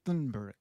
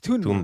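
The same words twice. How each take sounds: First: The name begins with a th sound. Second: The name begins with a plain t sound. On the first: The speaker calls it wrong. "because there's th right" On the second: The speaker calls it right. "but it's"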